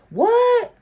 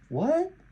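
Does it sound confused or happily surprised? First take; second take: happily surprised; confused. First: It sounds happily surprised to see someone. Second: It sounds confused, like not understanding.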